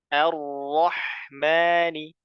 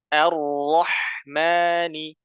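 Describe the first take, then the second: First: The first vowel is a thin, open 'a'. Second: The first vowel is a thin, open 'a'.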